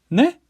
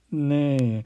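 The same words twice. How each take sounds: First: The pitch rises at the end. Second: The pitch falls at the end.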